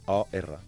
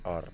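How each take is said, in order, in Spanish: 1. El nombre se deletrea con dos letras. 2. El nombre se dice como una sola palabra. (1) "Però es pronuncia O-R" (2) "no és or, has de com lletrejar"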